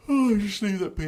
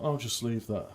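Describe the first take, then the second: First: High, louder, put-on repeat; playful high voice. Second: Said in the usual way. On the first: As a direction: lift it high and loud in mock lightness. Playful repeat of the same words.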